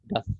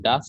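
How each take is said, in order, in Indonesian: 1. Vokalnya dipotong pendek. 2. Vokalnya diucapkan panjang. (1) "Yang betul adalah das" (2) "saya tadi salah nyebutnya das, itu salah"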